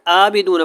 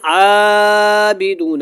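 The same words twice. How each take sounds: First: The first vowel is said short, not stretched. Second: The first vowel is stretched out very long. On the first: "कुछ लंबा ही नहीं करते" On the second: "कुछ लोग तो बहुत लंबा कर देते हैं"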